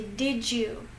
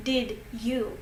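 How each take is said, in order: First: "Did you" merged into "didju"; linked J sound. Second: "Did you" with a clean D, then Y; separate words. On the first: Teacher showing what you do say, "Did you" as "didju". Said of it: "You say". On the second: Teacher showing what you don't say, "Did you" as two separate words. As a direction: keep "Did" and "you" apart, no J sound. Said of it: "So you don't say". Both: Shown as a demonstration.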